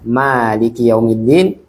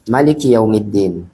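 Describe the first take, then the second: First: The first vowel of maliki is drawn out long. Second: The first vowel of maliki is kept short.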